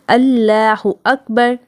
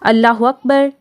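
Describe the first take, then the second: First: Akbar starts cleanly with no w sound. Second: Said fast with a w sound before akbar. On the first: The speaker calls it right. "ये दुरुस्त है" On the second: The speaker calls it wrong. "हु वकबर, वाव की आवाज़ आ जाती है"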